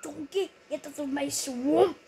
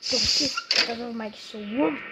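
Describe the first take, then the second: First: A hint of an ogre telling Donkey off; Shrek impression. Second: Loud, louder Shrek take; a hint of an ogre shouting at Donkey; Shrek impression. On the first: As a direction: growl it out like Shrek. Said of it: "How was that impression, eh?". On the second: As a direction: bellow it like Shrek. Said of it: "That's Shrek". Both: Shown as a demonstration.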